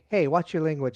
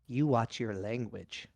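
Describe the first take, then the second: First: It sounds casual and light. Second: It sounds angry and menacing.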